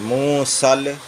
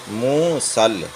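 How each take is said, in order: The two takes are said the same way.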